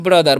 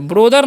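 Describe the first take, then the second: First: The first vowel sounds like 'uh'. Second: The first vowel sounds like 'oh'. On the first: The speaker calls it right. "क्या पढ़ते हैं" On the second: The speaker calls it wrong. "नहीं पढ़ना है"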